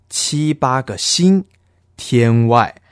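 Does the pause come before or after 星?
after. The pause comes after 星, before 天外. Seven or eight stars are beyond the sky. The speaker calls it right. "念这句的时候的断句应该是"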